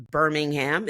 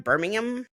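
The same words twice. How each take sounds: First: "Birmingham" American-style, last syllable rhyming with "jam"; full HAM ending. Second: "Birmingham" ending in a weak "um"; reduced -UM ending. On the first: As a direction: say "Birmingham" with a clearly sounded "ham" at the end. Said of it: "I don't know how you guys say it". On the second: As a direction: say "Birmingham" as "BIR-ming-um", the h dropped. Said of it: "The second one was spot on". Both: Shown as a demonstration.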